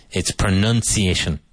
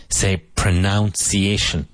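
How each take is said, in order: First: "pronunciation" with nun, pro-NUN-ciation; correct pronunciation. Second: "pronunciation" slowly said as pro-NOUN-ciation; wrong pronunciation. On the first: Teacher giving the correct nun sound in "pronunciation". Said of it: "Nun, like monja". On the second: Teacher showing the common mistake, pro-noun-ciation. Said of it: "nine out of ten native English speakers". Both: Shown as a demonstration.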